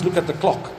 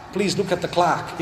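First: Said in the usual way. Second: "clock" said the American way, as "clahk"; American accent. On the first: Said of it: "it means look at the clock". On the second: Shown as a demonstration. Showing how Americans say "look at the clock", American accent. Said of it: "in American accent, if you say Clark".

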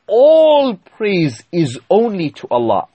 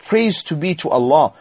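First: "all" drawn out high and loud, "only" underlined; stress on ALL and ONLY. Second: Said in the usual way. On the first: Shown as a demonstration. Preacher underlining the meaning of Alhamdulillah, heavy stress on "all" and "only". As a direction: hit "all" hard and stretch it, then mark "only". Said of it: "Underline the word all". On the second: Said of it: "is not merely that".

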